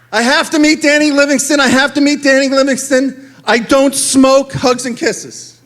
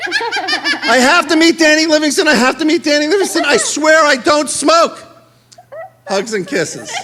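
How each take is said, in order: First: Higher, louder, gushing fan letter; mock swooning girl reader; lovestruck girl fan. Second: Higher, louder gushing fan voice broken by laughter; swooning girl voice with laughter; laughing through it. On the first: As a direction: read it like a smitten teenage girl. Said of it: "Denise Cantrell, North Platte, Nebraska". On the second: Retold or imitated. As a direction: repeat the fan letter while cracking up. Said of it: "Denise Cantrell".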